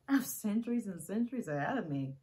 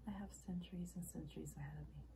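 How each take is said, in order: First: Loud, animated outburst; sighing first, then forceful; emphatic declaration. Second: Soft and understated; hushed, restrained admission; subdued reflection. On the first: Acted monologue, emphatic second take. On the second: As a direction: say it quietly, almost privately. Acted monologue, subdued first take. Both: Acted.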